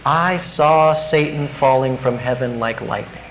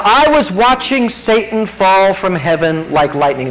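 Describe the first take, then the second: First: Softer, lower, understated; Jesus speaking gently. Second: Said in the usual way. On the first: Retold or imitated. Jesus answering a returning disciple, softer and lower. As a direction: say it quietly, as if Jesus were telling you personally. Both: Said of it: "wouldn't you love to hear Jesus say that?".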